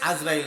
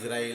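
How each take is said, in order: First: The name begins with an 'a' vowel. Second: The name begins with an 'i' vowel. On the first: The speaker calls it wrong. "আজরাইল না" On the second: The speaker calls it right. "শব্দটা হবে ইসরাইল, আইনের নিচে কি দিয়া? জের দিয়া।"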